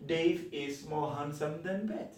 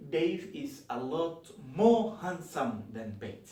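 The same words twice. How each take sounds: First: Said in the usual way. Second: A lot more pushed forward, the rest even; emphatic a lot more in a teacher's example; stress on a lot more. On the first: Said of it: "That's normal". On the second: Shown as a demonstration. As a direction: lean into a lot more to strengthen the comparison. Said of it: "when I want to emphasize".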